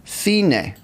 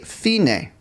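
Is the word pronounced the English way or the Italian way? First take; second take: Italian; Italian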